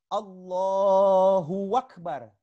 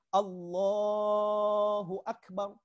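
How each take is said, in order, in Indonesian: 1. Ditambahkan bunyi w di tengah. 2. Diucapkan biasa, tanpa bunyi tambahan. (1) "ditambah huruf waw di tengahnya" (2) "bukan Allahu Akbar"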